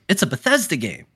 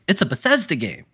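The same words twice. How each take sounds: First: It is said in an approving, positive tone. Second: It is said in an approving, positive tone.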